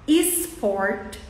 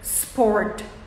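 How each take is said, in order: First: A short vowel sound comes before the s. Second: The word starts directly with the s sound. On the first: The speaker calls it wrong. "a gente coloca um E antes" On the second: The speaker calls it right. "O primeiro som que vai ser reproduzido na sua boca é s"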